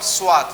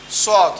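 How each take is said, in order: First: It sounds like 'swat', with a w sound. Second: It sounds like 'sod', with no w sound. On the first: The speaker calls it wrong. "not Swat" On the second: The speaker calls it right. "this one is Sod"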